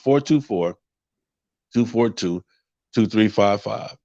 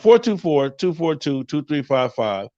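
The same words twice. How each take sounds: First: The number is said slowly. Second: The number is said at normal speed.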